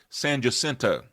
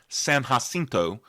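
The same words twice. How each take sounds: First: It is said the Texan way. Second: It is said the Spanish way.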